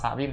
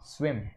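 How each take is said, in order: First: The word is split into two syllables. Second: The word is said as one single syllable. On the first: The speaker calls it wrong. "บ่ได้อ่านว่าสระวิม" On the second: The speaker calls it right. "เฮาอ่านว่า"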